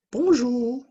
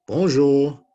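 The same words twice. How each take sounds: First: Very high, loud puppet voice; high-pitched puppet character; Inès puppet voice. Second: Loud puppet greeting, moderately raised pitch; big, loud puppet voice; Matisse puppet voice. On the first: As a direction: squeak out a greeting as a little puppet. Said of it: "Matisse and Inez, they've decided to dress up differently". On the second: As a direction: call it out as the second, less squeaky puppet. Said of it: "Matisse and Inez". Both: Acted.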